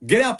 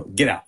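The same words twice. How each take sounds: First: Higher-pitched order, rising; retold insistent dismissal. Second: Low, restrained order; retold curt dismissal. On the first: Father to daughter before going on air, higher insistent dismissal. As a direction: insist with pitch lifted at the end. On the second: Father to daughter during commercial break, low curt dismissal. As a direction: dismiss someone in a lowered pitch. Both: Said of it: "I just go".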